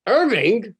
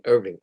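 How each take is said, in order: First: High, louder cry of protest on the name; shocked mother. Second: Said in the usual way. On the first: Retold or imitated. Mother objecting to her husband's plan, shocked outcry. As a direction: exclaim it like an appalled wife.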